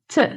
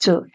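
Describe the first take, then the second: First: The vowel is reduced to schwa. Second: The word has a full vowel.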